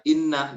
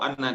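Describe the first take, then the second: First: The first vowel is an i sound. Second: The first vowel is an a sound. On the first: "dengan kasroh" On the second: "dengan fathah"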